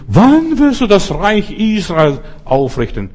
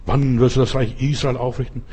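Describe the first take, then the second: First: High, loud, slow questioning. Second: Said in the usual way. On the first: Retold or imitated. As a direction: drag out the eager disciples' demand, up and loud. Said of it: "kommen und sagen".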